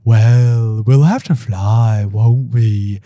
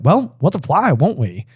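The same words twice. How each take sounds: First: It is said in a dreamy tone. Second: It is said in a matter-of-fact tone.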